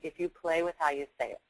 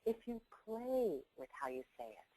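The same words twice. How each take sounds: First: It is said flatly, with even, plain delivery. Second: It is said playfully, with varied, lively delivery. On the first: "Saying it straight ahead" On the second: "playing with it"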